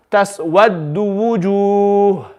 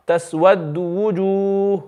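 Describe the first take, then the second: First: Wujuh ended on a clean sukoon; slow drawn Taswaddu wujuh, plain silent stop; stop with iskan. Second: Wujuh stopped silent with lips rounded for the dhamma; slow Taswaddu wujuh ending with rounded lips; stop with ishmam. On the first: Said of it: "I'll read it first with iskan". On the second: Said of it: "This is ishmam". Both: Shown as a demonstration.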